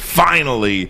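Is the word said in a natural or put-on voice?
natural. It is said in the speaker's natural voice.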